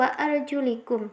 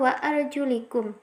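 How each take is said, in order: First: The vowel after the l is an i. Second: The same.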